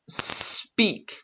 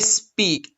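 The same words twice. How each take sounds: First: The word starts with a clear S sound. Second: The word does not start with a clean S. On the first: The speaker calls it right. "You need to pronounce speak" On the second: The speaker calls it wrong. "You don't pronounce speak. No, that's not correct"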